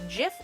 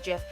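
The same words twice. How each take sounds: First: It starts with a soft j sound. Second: It starts with a hard g sound.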